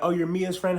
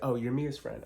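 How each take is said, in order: First: It is said in a warm, friendly tone. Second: It is said in a dry, curt tone.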